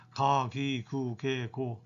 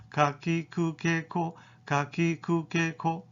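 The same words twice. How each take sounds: First: 가, 기, 그, 개, 고 drawn out, softly trailing lower; lax, lengthened 가, 기, 그, 개, 고; wrong soft GA row. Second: 가, 기, 그, 개, 고 short, from a lowered uvula; brisk separate beats on 가, 기, 그, 개, 고; lowered-uvula KA row. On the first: Teacher showing the wrong ga row, soft and lax. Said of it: "가도 아니죠". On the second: Teacher modelling the ka row, short, throat-placed onset. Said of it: "목젖이 내려와서". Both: Shown as a demonstration.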